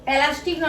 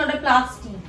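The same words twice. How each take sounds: First: Put-on প্লাস্টিক said as the child mangles it, like "elastik"; প্লাস্টিক mocked in a child's mispronunciation; imitating a mispronunciation. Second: প্লাস্টিক said with a clear "pl" cluster; প্লাস্টিক with both consonants at the start; correct pronunciation. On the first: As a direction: mimic the child's wrong প্লাস্টিক, then say না. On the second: Shown as a demonstration. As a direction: model প্লাস্টিক correctly for the child. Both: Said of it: "সবসময় ভুলভাল উচ্চারণ করবে".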